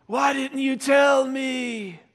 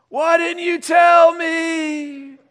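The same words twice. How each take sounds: First: High, slow drawn-out lament; hammed-up, stretched-out reproach; mock dying wail. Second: Very high, loud, long-drawn lament; over-the-top doomed cry; louder mock dying wail. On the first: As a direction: wail it like a doomed kid in a skit. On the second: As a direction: stretch every word into a huge melodramatic wail. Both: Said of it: "he starts to see Jesus".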